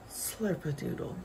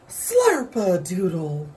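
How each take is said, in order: First: It is said at a normal, medium volume. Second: It is said loudly and strongly.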